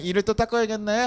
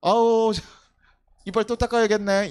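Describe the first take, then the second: First: 닦아야겠네 ending in a gentle rise; fondly resigned parent, rising at the end; fond resignation. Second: Put-on fond sigh over the child, 닦아야겠네 said with mild exasperation; an indulgent parent, sighing; fondly resigned parent. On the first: Retold or imitated. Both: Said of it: "아니, 이뻐요".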